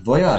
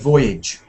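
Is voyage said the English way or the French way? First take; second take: French; English. First: It is said with a French pronunciation. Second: It is said with an English pronunciation. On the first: The speaker calls it wrong. "sounds a bit uh, parlez-vous français?" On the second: The speaker calls it right. "you have to say voyage"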